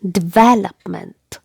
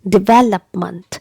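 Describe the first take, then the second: First: The stress is on the second syllable. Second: The same.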